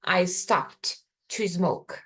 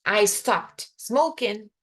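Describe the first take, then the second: First: Slow model sentence. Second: Slow, careful teaching read; slow model sentence. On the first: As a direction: contrast it, slowly. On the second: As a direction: lay it out slowly for students. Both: Shown as a demonstration.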